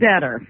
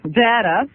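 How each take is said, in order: First: It is said in a neutral accent. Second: It is said in a New York accent.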